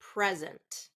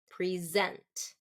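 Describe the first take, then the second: First: The stress is on the first syllable. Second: The stress is on the second syllable. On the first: It is used as a noun. "That's first syllable stress" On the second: It is used as a verb. "So that's going to be a verb"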